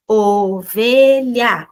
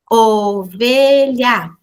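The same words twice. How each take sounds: First: Ovelha split slowly into o-ve-lha; syllable split. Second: Ovelha drawn out slowly and clearly; slow word demo. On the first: Teacher separating the word into syllables, slowly. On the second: Teacher presenting the word, slowly. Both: Shown as a demonstration. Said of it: "Separando uma palavra em sílaba".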